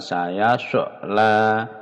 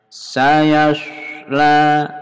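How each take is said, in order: First: An extra vowel bounce follows the s sound. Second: The s sound runs on with no bounce. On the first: The speaker calls it wrong. "bukan saya so la" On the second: The speaker calls it right. "tidak ada mantul di sini"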